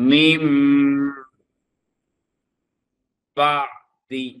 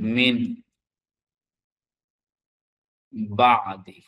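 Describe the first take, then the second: First: The first word ends with a nasalised m sound. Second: The first word ends with a plain n sound. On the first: "কিভাবে পড়ব? আমরা বলবো" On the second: "আমরা যদি লিখি এখানে মিন বা আদি"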